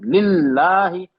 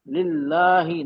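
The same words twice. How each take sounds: First: Slow, louder लिल्लाही with the ल्ल hit hard; लिल्लाही recited firmly, ल्ल doubled; stressed double letter. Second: लिल्लाही read softly, the ल्ल not pressed; the gentle wrong version of लिल्लाही; लिल्लाही with soft ल्ल and no stress. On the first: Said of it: "नरमी से नहीं पढ़ रहा हूँ". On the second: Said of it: "ऐसे नहीं पढ़ रहा हूँ". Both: Shown as a demonstration.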